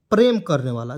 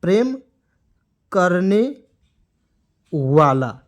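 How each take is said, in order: First: Said in the usual way. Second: "प्रेम करने वाला" slowly, a long pause after each word; word-by-word dictation. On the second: Shown as a demonstration. Teacher dictates meaning for students to write, word by word.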